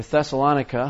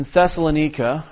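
First: Thessalonica said as thessa-LON-ika; alternative pronunciation. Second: Thessalonica said as thessa-lo-NEE-ka; variant pronunciation. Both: Shown as a demonstration. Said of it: "however you choose to pronounce that".

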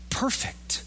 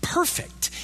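First: A hushed, reverent whisper of "perfect,". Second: "perfect." lifted high on an airy breath; an awed, high, airy "perfect."; high breathy echo. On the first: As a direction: breathe "perfect," as an awed whisper. Whispered attribute of God. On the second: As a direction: float "perfect." up high and unvoiced. Repeated attribute, high. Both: Acted.

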